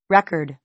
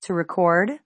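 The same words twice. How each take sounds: First: "record" stressed on the first syllable, REK-erd; "record" as REC-urd, ending falling; noun stress on record. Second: "record" stressed on the second syllable, ri-CORD; "record" as re-CORD, ending rising; verb stress on record. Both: Shown as a demonstration.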